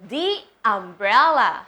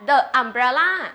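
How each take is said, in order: First: 'The' is said with a long 'ee' vowel. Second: 'The' is said with a short weak vowel. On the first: The speaker calls it right. "แต่เราจะพูดว่าอะไร" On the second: The speaker calls it wrong. "เราจะไม่พูดว่า"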